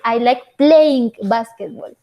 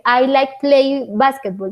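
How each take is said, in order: First: Slow model sentence with a full "-ing" on "playing"; "playing" said slowly with its ending clearly there; corrected -ing form. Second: "playing" cut down to bare "play", no -ing ending; wrong verb form. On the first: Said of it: "No, se dice". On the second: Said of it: "No es correcto decir". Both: Shown as a demonstration.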